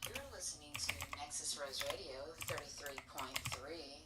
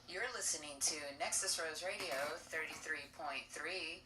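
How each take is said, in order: First: It sounds like a smooth, seductive radio voice. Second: It sounds like plain, casual everyday talk.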